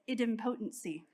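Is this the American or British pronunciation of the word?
British. It is said with the British pronunciation. "the British have corrected me and said it's"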